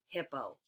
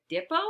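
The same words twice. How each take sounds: First: Said in the usual way. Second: 'dippo' opened on a hard d; wrong first sound. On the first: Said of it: "or a". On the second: Shown as a demonstration. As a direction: say 'dippo' with d replacing the h. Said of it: "Is it a d".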